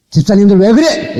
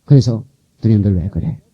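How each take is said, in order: First: 음을 높여 꾸짖는 시범; 목사답게 높은 소리로 호통치듯. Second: Said in the usual way. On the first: Shown as a demonstration. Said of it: "막 호통도 쳐가면서". (집사들을 나무라는 높은 호통) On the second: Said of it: "이렇게 해야".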